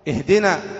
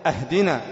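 First: The word begins with an i vowel. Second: The word begins with an a vowel. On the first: It means guide us. The speaker calls it right. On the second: It means give us a gift. The speaker calls it wrong.

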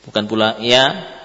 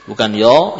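First: The vowel is nasalised. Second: A thick, darkened vowel close to 'yo'. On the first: "memberikan gunnah"

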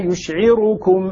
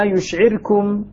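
First: The r carries a full u vowel. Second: The r carries a quick, partial u vowel. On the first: "الراء مضمومة هنا" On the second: "الاختلاس"

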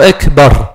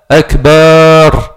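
First: The final syllable is kept short. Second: The final syllable is drawn out long. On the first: The speaker calls it right. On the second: The speaker calls it wrong.

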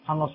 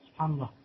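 First: The phrase is said quickly and hurriedly. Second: The phrase is said slowly and deliberately. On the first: It is said out of habit without thinking. The speaker calls it wrong. "il ne faut pas les dire comme ça sans savoir ce que tu dis" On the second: It is said while thinking of its meaning. The speaker calls it right. "Il faut aller doucement"

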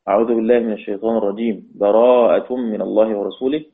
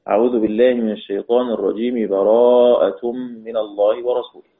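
First: There is a pause between the two phrases. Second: The two phrases run together without a pause. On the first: "القطع" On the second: "الوصل"

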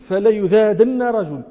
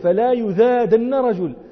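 First: The 'la' has a short vowel. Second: The word 'la' has a long vowel. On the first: It affirms that a man will certainly be driven away. "رواية الأكثرين بالتوكيد" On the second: It forbids doing anything that gets a man driven away. "رواية يحيى بلا نهية"

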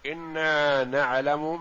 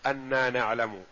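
First: The first word begins with an i vowel. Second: The first word begins with an a vowel. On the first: It states the reason directly as a new sentence. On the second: It means because, with the causal particle left out.

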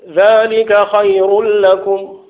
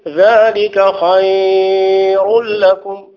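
First: The vowel in the middle word is held short. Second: The vowel in the middle word is held long. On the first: The speaker calls it right. "ما فيهاش مد" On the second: The speaker calls it wrong. "ما يجوز هذا"

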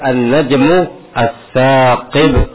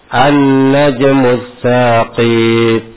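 First: The first syllable of saqib is held long. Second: The second syllable of saqib is held long. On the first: The speaker calls it right. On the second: The speaker calls it wrong.

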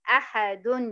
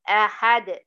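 First: The word ends with an added un sound. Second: The word ends on a plain d sound. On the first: The word is read on without stopping. "هي لو عليها تنوين بالضم" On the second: The reader stops on the word. "لو أنا هقف عليها ... سكنت الحرف الأخير اللي هو الدال"

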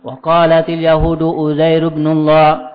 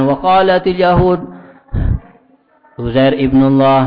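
First: It is read straight through without a pause. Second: There is a stop before the second phrase. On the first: God has no son is the statement being reported. The speaker calls it right. "Harus diulang" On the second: The reader seems to assert the claim himself. The speaker calls it wrong.

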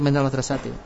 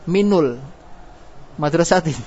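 First: The linking vowel after min is a. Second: The linking vowel after min is u. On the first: The speaker calls it right. "kita pakai minal madrasati" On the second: The speaker calls it wrong. "Kenapa tidak dibaca doma"

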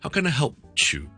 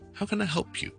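First: The you after help sounds like chew. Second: The p links into you, like pure. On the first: The speaker calls it wrong. "就千祈唔好, 就会好奇怪噶啦" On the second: The speaker calls it right. "it sounds almost like the word pure 嗰一开头嗰个音"

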